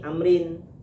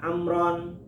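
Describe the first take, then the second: First: The name ends with an i sound before n. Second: The name ends with an a sound before n. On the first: "Kalau barisnya ni" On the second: "Kalau barisnya na"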